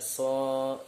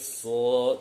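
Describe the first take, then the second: First: The vowel is light and bright, like a. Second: The vowel is heavy and dark, like o. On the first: The speaker calls it wrong. "tidak so" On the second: The speaker calls it right. "so tebal"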